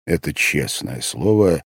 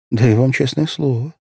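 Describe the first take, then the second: First: Said in the usual way. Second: Put-on higher earnest vow of a girl; girl's earnest promise. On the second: A narrator's reading. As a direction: swear it like a child, sincerely. Asya's promise vs narrator echo.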